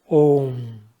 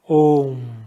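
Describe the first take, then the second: First: The vowel is a single o sound. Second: The vowel is a single o sound.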